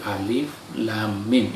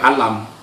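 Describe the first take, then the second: First: Each letter is named separately, one by one. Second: The letters are run together into one word. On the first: The speaker calls it right. "tapi alif, lam, mim, itu muqatta'" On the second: The speaker calls it wrong. "bukan dibaca alam"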